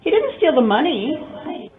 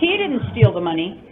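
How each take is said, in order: First: The stress falls on money. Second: The stress falls on he. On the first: He stole something else instead. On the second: Someone else stole it. "I suspect that she did"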